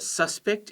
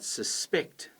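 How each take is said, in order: First: The stress is on the first syllable. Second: The stress is on the second syllable. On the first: It is a person. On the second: It is an action.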